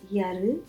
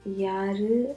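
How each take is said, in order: First: The a vowels are clipped, like one a. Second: Both a vowels are clearly drawn out. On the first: The speaker calls it wrong. "not yaru" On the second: The speaker calls it right. "You should really pronounce both the A's"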